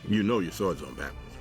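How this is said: It ends falling, as a statement.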